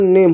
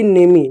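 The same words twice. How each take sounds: First: नेम ending on the m; नेम with the last e left silent; silent final e. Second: नेमी with a long ee on the end; wrong reading नेमी, final e voiced as ee; final e sounded. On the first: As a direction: say नेम as one syllable, no vowel after m. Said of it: "इसका उच्चारण नेम होगा". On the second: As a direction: say नेमी as two syllables, nay-mee. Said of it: "ना कि नेमी". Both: Shown as a demonstration.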